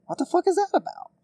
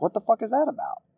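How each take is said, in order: First: Much higher, louder, near squeal; incredulous outburst. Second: Raised pitch, indignant question; venting disbelief at the rule; exasperated. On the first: Ranting podcaster repeating himself louder, incredulous outburst. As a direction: push the disbelief over the top. Repeats the rant question, escalating. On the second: Ranting podcaster venting about Olympics rules, exasperated. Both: Real, not acted.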